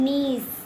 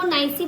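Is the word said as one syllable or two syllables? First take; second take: one syllable; two syllables. First: It is said in one syllable, like neess. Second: It is said in two syllables, like nai-see. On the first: The speaker calls it right. "इसको पढ़ेंगे हम नीस" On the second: The speaker calls it wrong. "वो नाइसी पढ़ना गलत है"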